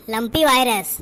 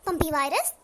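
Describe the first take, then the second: First: lumpy said louder with a clear l, correcting Pampi; doctor correcting the villager, loud and firm on lumpy; firm correction. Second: Pampi with a p instead of the l of lumpy, asked puzzled; mispronounced virus name. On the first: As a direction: hit lumpy hard to set the record straight. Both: Acted. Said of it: "अरे पम्पी नहीं".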